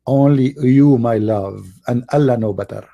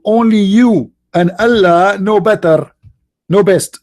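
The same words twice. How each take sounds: First: Said in the usual way. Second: Put-on higher, slow, sweet girlfriend voice; adoring fiancée. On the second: Mocking the fiancée's adoring answer to her man, high and slow. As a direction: melt into it like a devoted fiancée.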